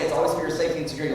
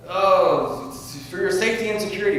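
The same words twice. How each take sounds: First: Said in the usual way. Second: High, loud mock official reassurance; mock official telling people it's for their own good. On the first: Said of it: "Isn't that what they always say?". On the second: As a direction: sneer it like a smug agent selling safety. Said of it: "jump out and say".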